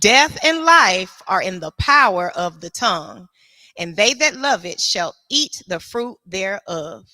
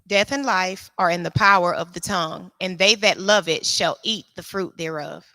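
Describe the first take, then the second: First: It is delivered forcefully, like a preacher. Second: It is read plainly, like ordinary reading.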